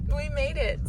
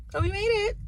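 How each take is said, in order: First: Said in the usual way. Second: High, bright burst of relief; excited relief. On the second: Real, not acted. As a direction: cheer it out, relieved. Relieved arrival after tough drive.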